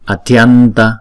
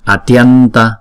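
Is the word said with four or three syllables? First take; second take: three; three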